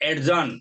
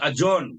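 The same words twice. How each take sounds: First: A separate d sound comes before j. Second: The d merges into one j sound. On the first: The speaker calls it wrong. "not adjourn" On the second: The speaker calls it right. "the code is adjourn"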